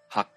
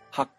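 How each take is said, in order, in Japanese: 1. 「ha」は中くらいの音で詰まる。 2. 「ha」は高い音で詰まる。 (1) "中くらいの位置で、詰まる発音である第4 声" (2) "高い位置で、詰まるように発音をする第8 声"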